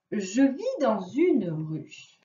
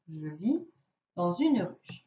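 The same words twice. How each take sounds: First: "Je vis dans une ruche" read very slowly; slow riddle reading. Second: Said in the usual way. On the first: Shown as a demonstration. (lecture très lente de la devinette) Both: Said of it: "première devinette".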